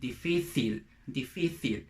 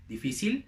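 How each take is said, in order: First: "difícil" with c as th; European Spanish. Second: "difícil" with c as s; Latin American Spanish. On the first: Teacher contrasts Europe with Latin America, European Spanish pronunciation. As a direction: say "difícil" dee-FEE-theel, as in Spain. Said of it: "In Europe, they say". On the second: Teacher contrasts Latin America with Europe, Latin American pronunciation. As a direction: say "difícil" dee-FEE-seel, Latin American style. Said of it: "In Latin America, we say". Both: Shown as a demonstration.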